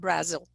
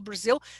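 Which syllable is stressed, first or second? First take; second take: first; second. First: The stress is on the first syllable. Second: The stress is on the second syllable. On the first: The speaker calls it wrong. "it has to be" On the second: The speaker calls it right. "It shouldn't be"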